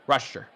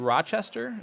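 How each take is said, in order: First: The word is shortened, with part of it dropped. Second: The word is said in full, every syllable. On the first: This is how people from there say it. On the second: This is how outsiders say it.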